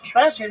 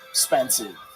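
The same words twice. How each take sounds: First: The word is said with its opening vowel. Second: The word is said without its opening vowel. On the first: "He didn't say it right" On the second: "I can't afford the vowel"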